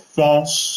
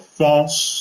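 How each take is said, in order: First: The word is said in a fancy French way. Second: The word is said in a fancy French way.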